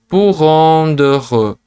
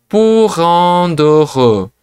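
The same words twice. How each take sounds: Both takes have the same delivery.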